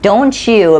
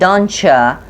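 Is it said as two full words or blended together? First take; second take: full; blended. First: Both words are said fully and separately. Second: The words blend into one sound, don'tcha.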